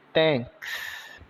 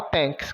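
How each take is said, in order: First: Thanks with silent H, "tenks", softer; thanks pronounced. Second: Thanks, short "tenks", softer; thanks said informally. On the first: Teacher models Thanks after spelling it, soft "tenks". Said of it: "T com o som de T, o H é mudo". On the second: Teacher contrasts informal thanks for students, short "tenks". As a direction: drop it casually as "tenks". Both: Shown as a demonstration.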